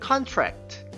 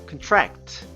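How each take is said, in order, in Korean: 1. 강세는 첫 번째 음절에 있어요. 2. 강세는 두 번째 음절에 있어요.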